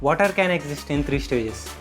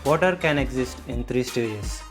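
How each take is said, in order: First: The voice is lighter and less resonant. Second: The voice is deeper and more resonant. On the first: "ఇది నేను నా upper బాడీతో మాట్లాడాను" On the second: "దానికన్నా ఇది కొంచెం డీపర్గా వచ్చింది"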